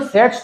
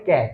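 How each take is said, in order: First: The word begins with an s sound. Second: The word begins with a k sound. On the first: The speaker calls it wrong. "इसको सेट्स थोड़ी बोलते हैं" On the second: The speaker calls it right. "इसको बोलते हैं कैच"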